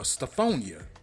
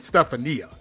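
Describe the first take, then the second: First: The second syllable has an 'oh' vowel. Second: The second syllable has an 'ah' vowel. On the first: The speaker calls it right. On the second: The speaker calls it wrong.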